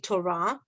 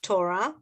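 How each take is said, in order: First: The stress is on the last syllable. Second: The same.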